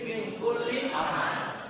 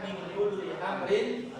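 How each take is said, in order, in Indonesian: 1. Kata terakhir berakhir terpotong pada bunyi r. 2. Kata terakhir berakhir dengan tambahan vokal dan n. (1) "Nah itu mestinya begitu" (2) "tapi sering dibaca"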